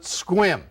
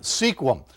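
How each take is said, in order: First: The name is said the way locals say it. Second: The name is read out as it is spelled. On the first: The speaker calls it right. "but they pronounce it Sequim" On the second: The speaker calls it wrong. "It's spelled S E Q U I M"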